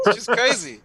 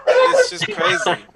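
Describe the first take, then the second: First: Said in the usual way. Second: Laughing squeal. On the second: Real, not acted. Repeated line, laughed.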